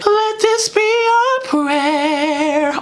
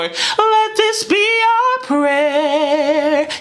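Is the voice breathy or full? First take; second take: breathy; full. First: The voice is airy with escaping breath. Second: The voice is thick with no escaping breath. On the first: "the first one, I had less vocal fold closure, more air passing through" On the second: "the second time, I kind of brought the vocal folds together a little more thickly"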